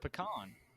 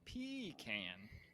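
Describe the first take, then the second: First: The first vowel is not a long ee sound. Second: The first vowel is a long ee sound. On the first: The speaker calls it right. "It's pecan" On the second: The speaker calls it wrong. "there's not two e's. I mean, it's not like pecan"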